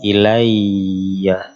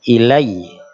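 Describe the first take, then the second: First: The word ends in a full doubled 'ya' sound. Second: The word ends in a clipped, pressed 'i' sound. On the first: The reciter carries on past this word. The speaker calls it wrong. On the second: The reciter stops at this word. The speaker calls it right. "ketika berhenti ilai"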